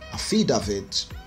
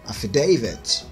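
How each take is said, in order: First: It is said in a Nigerian accent. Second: It is said in a British accent. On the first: The speaker calls it wrong. "the Nigerian pronunciation" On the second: The speaker calls it right. "The correct British Standard pronunciation"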